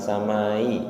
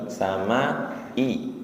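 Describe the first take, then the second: First: The final vowels run together with no break. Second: A clear glottal break separates the final i. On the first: The speaker calls it wrong. "tidak samai, bukan samai" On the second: The speaker calls it right.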